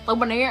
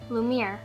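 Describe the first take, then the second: First: The name has an n sound before the end. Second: The name has no n sound before the end. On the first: The speaker calls it wrong. "not Lumineer" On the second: The speaker calls it right. "I think it is Lumiere"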